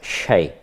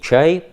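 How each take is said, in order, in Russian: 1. Слово начинается с очень мягкого, краткого sh. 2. Слово начинается со звука ch. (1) "очень мягкая, такая очень беглая «ш»" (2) "по-русски «чай»"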